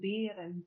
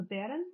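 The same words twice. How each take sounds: First: "bären" said as the Middle English form, first vowel lengthened; Middle English pronunciation. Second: Put-on "bären" said as the Old English original, with a short first vowel; Old English pronunciation. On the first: Lecturer shows the Middle English form: "bären" with a lengthened vowel. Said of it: "would be the Middle English version". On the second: Lecturer gives the Old English form: "bären" with a short vowel. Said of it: "would be the original word". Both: Shown as a demonstration.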